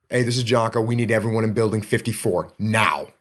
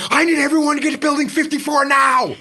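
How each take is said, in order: First: Low, smooth and unhurried; the calmest operator anyone ever heard; calm radio voice. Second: High, urgent panicked call; panicked radio call. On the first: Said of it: "the calmest, smoothest operator". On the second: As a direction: sound like you're losing it on the radio. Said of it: "now we've got everyone freaking out". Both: Shown as a demonstration.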